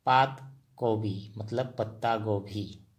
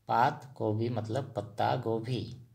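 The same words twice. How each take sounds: The two takes are said the same way.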